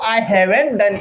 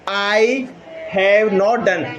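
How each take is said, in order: First: Have not is contracted into one word. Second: Have not is said as two full words.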